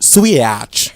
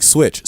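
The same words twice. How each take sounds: First: "Switch" loud and stretched into swee-atch; mocking pronunciation. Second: Said in the usual way. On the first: Host mimicking co-host, "Switch" as a loud swee-atch. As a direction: blow "Switch" up into two syllables. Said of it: "You just say".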